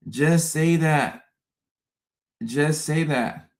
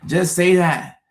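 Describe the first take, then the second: First: Slowed right down, deliberate; slow pleading repeat. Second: Louder, higher plea; begging for plain words; exasperated plea. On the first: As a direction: drag it out, pleading. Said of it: "repeated slower". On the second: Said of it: "repeated plea". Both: Real, not acted.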